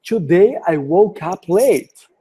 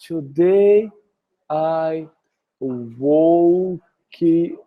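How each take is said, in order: First: It is said confidently, in one smooth go. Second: It is said hesitantly, broken up with pauses.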